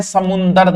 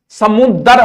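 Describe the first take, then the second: First: समुंदर with an n before द; wrong form समुंदर. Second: समुद्र with a doubled d, no n; correct pronunciation समुद्र. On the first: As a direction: say समुंदर slowly, sounding the nasal. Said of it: "समुंदर नहीं होता". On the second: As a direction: say समुद्र slowly, without any nasal before द. समुंदर नहीं होता. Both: Shown as a demonstration.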